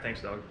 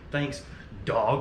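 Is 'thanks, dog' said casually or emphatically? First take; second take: casual; emphatic. First: It is said in a relaxed, offhand way. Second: It is said in a pointed, emphatic way. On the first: It was a harmless, friendly remark. "Like super casual" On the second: It would sound like a pointed insult. "I didn't say it like that"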